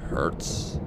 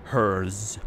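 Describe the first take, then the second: First: Hertz with a crisp "ts" ending; name pronounced Hertz. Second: Hers with a buzzing "z" ending; name pronounced as hers. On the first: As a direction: say Hertz like "hurts". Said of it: "I assume it's pronounced". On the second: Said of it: "it would sound weird if it was". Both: Shown as a demonstration.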